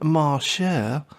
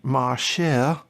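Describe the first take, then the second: First: The name is said in a put-on accent. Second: The name is said in a plain, unaccented voice.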